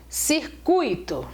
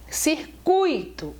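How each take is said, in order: First: The stress falls on the u sound. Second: The same.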